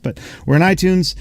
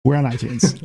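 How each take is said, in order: First: High, beaming announcement; excited. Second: Said in the usual way. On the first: Real, not acted. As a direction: grin through the news. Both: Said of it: "I can't say without smiling".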